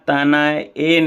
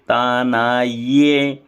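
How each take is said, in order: First: The final syllable is a bare e vowel. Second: The final syllable starts with a y sound. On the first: The speaker calls it wrong. "अब यहाँ ताना ए नहीं बोलना है" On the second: The speaker calls it right. "तानाये ये ऐसा बोलना है"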